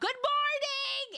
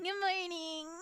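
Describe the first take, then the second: First: It is said cheerfully and loudly. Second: It is said reluctantly and flatly.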